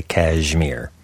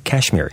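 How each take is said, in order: First: KASHMIR with a voiced zh, "kazh-meer". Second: KASHMIR with a plain sh sound. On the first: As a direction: buzz the middle of Kashmir as zh. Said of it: "the zh sound". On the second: Shown as a demonstration. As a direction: keep sh, not zh, in Kashmir. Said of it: "doesn't have the zh sound".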